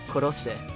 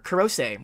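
First: It is said with a Japanese accent. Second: It is said with an American accent.

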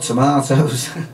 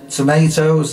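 First: The middle vowel is the British 'ah' sound. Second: The middle vowel is the American 'ay' sound. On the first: It does not rhyme with potatoes. The speaker calls it wrong. "and not tomatoes" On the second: It rhymes with potatoes. The speaker calls it right. "I actually remember to sing tomatoes ... because otherwise it doesn't rhyme with potatoes"

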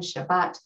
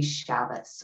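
First: The word ends with a T sound. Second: The word ends with an S sound.

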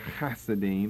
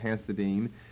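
First: It begins with a harsh throaty ch sound. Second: It begins with a soft plain h sound. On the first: "The H there in Hebrew is really the CH, or the hard H, the K"

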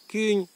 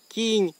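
First: The vowel is the distinctive old dialect sound. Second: The vowel is a plain pure i. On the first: Old and young speakers alike still say it this way. "Вони кажуть" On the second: Younger people are starting to say it this way. "молода челядь уже зачинать казати там і пенчистоє «і»"

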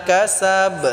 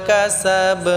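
Both takes have the same delivery.

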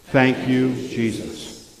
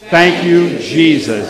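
First: It is said calmly, without extra energy. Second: It is said with loud, excited energy.

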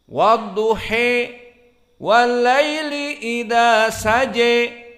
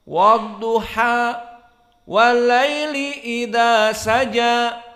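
First: The final vowels are raised strongly toward e. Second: The final vowels are a clear, open a. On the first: "dibaca dengan Al-Imalah Al-Kubra" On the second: "dibaca fathah"

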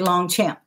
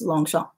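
First: The name is pronounced with English sounds. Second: The name is pronounced with French sounds. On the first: The speaker calls it wrong. "A lot of people say Longchamp" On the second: The speaker calls it right. "but it's Longchamp"

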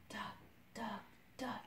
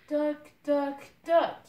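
First: It is said very softly. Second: It is said a little louder.

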